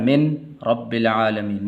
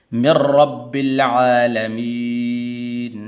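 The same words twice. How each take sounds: First: मिन रब्बिल आलमीन with a clear n before ra; wrong unmerged nun. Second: Said in the usual way. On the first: Shown as a demonstration. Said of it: "ऐसा नहीं पढ़ना". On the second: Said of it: "मीम को आगे रा के साथ मिलाना है".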